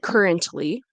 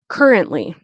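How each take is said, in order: First: The T sound is clearly pronounced. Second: The T sound is left out. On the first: "You could say currently, but it's not necessary" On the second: "you'll notice that I don't really pronounce the T"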